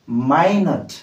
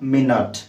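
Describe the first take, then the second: First: The first syllable sounds like 'my'. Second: The first syllable sounds like 'min'. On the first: Very small. "आउ गोटे word अछि जोटा होछि माइनट" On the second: A unit of time. "केमिति उच्चारण करिबा M I N U T E मिनट कौन पढ़िबा मिनट"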